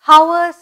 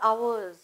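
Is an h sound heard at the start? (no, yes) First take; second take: yes; no. First: The word begins with an audible h sound. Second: The word begins with no h sound. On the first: The speaker calls it wrong. "hours னு சொல்லக்கூடாது" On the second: The speaker calls it right. "H is silent"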